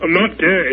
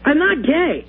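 First: It is said in a deeper voice. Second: It is said in a lighter voice.

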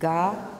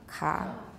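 First: The consonant is fully voiced before the vowel. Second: The consonant is voiceless with a strong breath puff.

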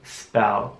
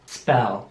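First: The word is said slowly and drawn out. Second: The word is said at a normal pace.

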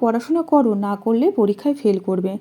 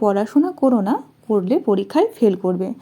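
First: The pause falls after the word 'koro'. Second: The pause falls after the word 'na'. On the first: Study, because not studying makes you fail. "দ্বিতীয় বাক্যটিতে দেওয়া হয়েছে করোর পরে" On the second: Do not study, because studying makes you fail. "প্রথম বাক্যটিতে না এর পরে দেওয়া হয়েছে"

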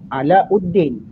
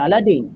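First: The name has a 'u' sound after 'la'. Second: The name has no 'u' sound after 'la'. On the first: The speaker calls it right. "Sebenarnya Alauddin" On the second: The speaker calls it wrong. "Sebenarnya bukan Aladdin"

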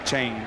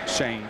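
First: The name is said as Shane. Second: The name is said as Shane.

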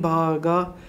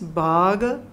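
First: The final vowel is drawn out long. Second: The final vowel is short. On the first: The speaker calls it wrong. "we are not saying bhaga because the last A doesn't has any bar" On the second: The speaker calls it right. "So it becomes a smaller sound. So it is bhaga"

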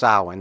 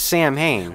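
First: The word is said the traditional Celtic way. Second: The word is said the way the films say it. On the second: "if you go by the pronunciation depicted in these films"

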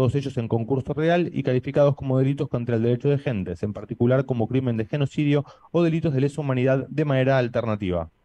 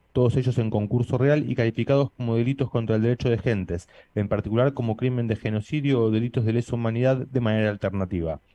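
The two takes are said the same way.

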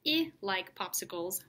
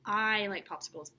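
First: The first word has a short i vowel. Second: The first word has a long, stretched vowel. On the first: The speaker calls it wrong. "So I doesn't say I" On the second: The speaker calls it right. "You stretch out I. You say its name"

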